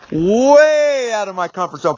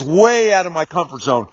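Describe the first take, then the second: First: "Way" drawn out long in a rising-falling swoop; emphatic stretched WAY. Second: Said in the usual way. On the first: Real, not acted.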